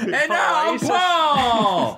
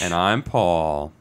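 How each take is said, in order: First: It is said with lively excitement. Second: It is said in a flat, plain way.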